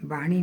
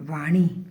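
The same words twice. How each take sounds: First: The word begins with a b sound. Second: The word begins with a v sound. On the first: The speaker calls it wrong. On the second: The speaker calls it right.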